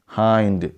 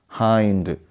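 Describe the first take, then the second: No difference in how they are said.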